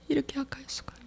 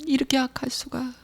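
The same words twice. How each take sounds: First: "이렇게 악할 수가" breathed as a whisper; whispered confession. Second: "이렇게 악할 수가" said much softer, barely voiced; fading confession. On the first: Acted. Believer confessing to the Lord, whispered remorse. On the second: Believer confessing to the Lord, soft hushed remorse. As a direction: drop "이렇게 악할 수가" to a hush. Confession fades toward whisper.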